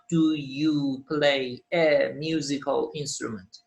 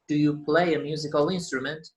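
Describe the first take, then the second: First: The words are said separately without linking. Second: The words are linked smoothly together. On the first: The speaker calls it wrong. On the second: The speaker calls it right. "Linking sounds, don't forget them"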